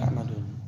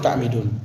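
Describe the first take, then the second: First: The vowel after the m is 'a'. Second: The vowel after the m is 'i'. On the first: The speaker calls it wrong. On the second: The speaker calls it right.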